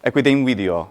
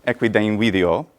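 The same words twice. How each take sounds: First: Equidem video merged into one flowing phrase, final fall; elided equidem video. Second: Equidem video run together, m merging into video; elided equidem video. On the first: Teacher repeats elision for students to copy. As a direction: blend equidem video as a single unit. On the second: Teacher models Latin elision for the class. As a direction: glide equidem straight into video, no break. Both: Shown as a demonstration. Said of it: "the merging of two syllables together".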